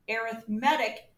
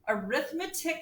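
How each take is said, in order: First: The stress is on the third syllable. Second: The stress is on the second syllable. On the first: It describes a type of sequence. "arithmetic is an adjective describing the type of sequence" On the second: It names the branch of mathematics. "Arithmetic is a noun"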